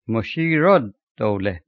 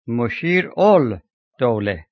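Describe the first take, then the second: First: The L blends into a doubled D. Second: The L is sounded before the D. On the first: This is how it is actually spoken. "it is pronounced Mushirud-Dawla" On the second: This matches the written form. "it is written Mushir-ul-Dawla"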